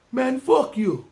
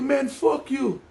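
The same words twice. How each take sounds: First: Put-on Caribbean accent. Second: High mock Jamaican-accented curse; Caribbean accent. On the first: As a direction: fling it in a put-on Jamaican accent. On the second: Cab driver cursing at the kids, high mock Jamaican accent. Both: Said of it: "I don't know if it was a Jamaican accent".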